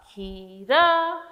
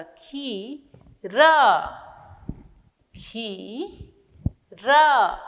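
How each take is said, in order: First: Said in the usual way. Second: खीरा drawn out long on the ई; slow teacher model word; very slow syllable stretch. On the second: Shown as a demonstration. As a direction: stretch it slowly for children. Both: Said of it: "ख में बड़ी की मात्रा".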